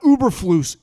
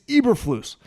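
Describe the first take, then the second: First: The name begins with an 'oo' vowel. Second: The name begins with an 'eh' vowel. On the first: The speaker calls it wrong. "It's not Uberflus" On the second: The speaker calls it right. "it's Eberflus"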